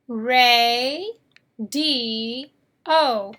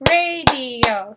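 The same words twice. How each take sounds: First: "Ray, D, O" as three separated beats; syllable by syllable. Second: Said in the usual way. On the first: Shown as a demonstration. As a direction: break radio into "Ray", "D", "O". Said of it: "How many syllables in radio?". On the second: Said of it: "Three syllables".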